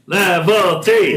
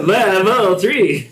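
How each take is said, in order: First: Excited shout. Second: Shouted through laughter, drawn out; laughing shout. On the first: Reacting to a huge dice roll. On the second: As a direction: yell it again, cracking up. Repeating the shout while laughing. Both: Real, not acted.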